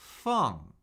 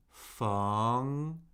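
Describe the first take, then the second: First: The pitch falls steadily from high. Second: The pitch rises from mid to high.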